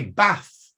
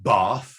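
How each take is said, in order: First: Bath with a short flat A, as in cat. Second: Bath with a long AH, as in father. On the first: Lecturer showing his own accent, short-A Bath. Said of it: "I say Bath, not Bath". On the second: Lecturer showing southern English accent, long-AH Bath. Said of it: "not Bath". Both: Shown as a demonstration.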